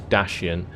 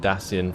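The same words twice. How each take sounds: First: The middle consonant is an sh sound. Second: The middle consonant is a plain c sound. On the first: The speaker calls it right. "the actual real pronunciation is Dacian, as in S H rather than the actual C" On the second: The speaker calls it wrong. "I have the habit of calling them Dacian from Rome Total War"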